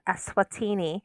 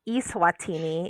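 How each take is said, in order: First: The name does not begin like 'email'. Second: The name begins like the word 'email'. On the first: It is the real country's name. The speaker calls it right. "in fact, Eswatini" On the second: It sounds like an electronic, virtual country. The speaker calls it wrong. "if you pronounce it like it's a virtual country"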